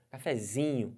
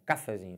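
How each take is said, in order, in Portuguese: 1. A tônica cai na terceira sílaba, zi. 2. A tônica cai na primeira sílaba, ca. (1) "a sílaba tônica da palavra cafezinho é o zi" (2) "Coloca um acento no A"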